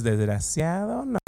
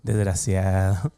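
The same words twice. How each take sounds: First: Laughing insult. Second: Slow, contemptuous "Desgraciado"; scornful insult. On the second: Pastor tells the congregation how to answer the enemy, with scorn. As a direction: spit out "Desgraciado" slowly with scorn. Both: Shown as a demonstration. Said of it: "así con esa cara, dile".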